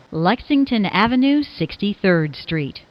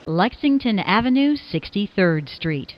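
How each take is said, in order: Both takes have the same delivery.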